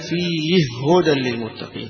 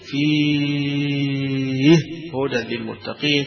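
First: The vowel in the first word is held short. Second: The vowel in the first word is held long. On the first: "بالقصر" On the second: "والمد"

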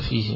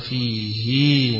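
First: The final i vowel is kept short. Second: The final i vowel is lengthened. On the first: This is the other readers' tradition of recitation. "بالكسر فقط بغير إشباع" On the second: This is one reader's tradition of recitation. "حيشبع الهاء التي في آخره، يشبع كسرة الهاء"

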